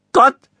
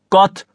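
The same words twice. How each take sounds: First: "Gott" squeaked very high and loud in a breaking voice; boy repeating in a squeak. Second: "Gott" said loud with a hard G, not the Berlin J; model pronunciation. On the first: A narrator's reading. Son obediently repeating "Gott" in his breaking voice. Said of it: "sagte Theochen". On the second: Shown as a demonstration. Father demonstrating "Gott" with a hard G for his son. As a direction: firmly pronounce "Gott" with a clean G for him to copy. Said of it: "sprich nach".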